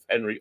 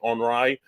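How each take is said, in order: First: The name is pronounced the English way. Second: The name is pronounced the French way.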